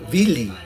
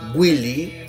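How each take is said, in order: First: The name begins with a soft b sound. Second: The name begins with a gw sound. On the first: The sound takes on a lunar, watery quality. "lo pronuncian con la B corta" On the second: The sound takes on a fiery quality. "Si lo pronuncian con la con la Gu"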